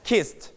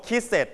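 First: "kissed" as one syllable ending in a light T; light final T. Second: "kisses" with a separate second syllable; wrong extra syllable. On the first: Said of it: "ให้มี ถ เบาๆ". (ออกเสียง "kissed" พยางค์เดียว มี ถ เบาๆ ท้ายคำ) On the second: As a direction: say "kisses" as two beats, sounding out the ending. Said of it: "you don't pronounce". (ออกเสียง "kisses" ผิดเป็นสองพยางค์) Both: Shown as a demonstration.

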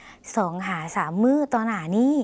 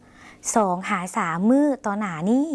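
First: Slow, clear repeat of สองหาสามมื้อต่อหน้านี้; slow Lao demo. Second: Slow, clear Lao model sentence สองหาสามมื้อต่อหน้านี้; slow Lao demo. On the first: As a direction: repeat it slowly for learners. (อ่านซ้ำช้าๆ ให้ผู้ชมพูดตาม) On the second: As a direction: spell it out slowly for learners to repeat. (อ่านช้าๆ ชัดๆ ให้ผู้ชมพูดตาม) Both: Shown as a demonstration. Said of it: "ลองออกเสียงภาษาลาว".

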